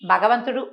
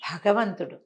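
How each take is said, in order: First: The first consonant is unaspirated, without breath. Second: The first consonant is aspirated, with breath. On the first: The speaker calls it wrong. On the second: The speaker calls it right.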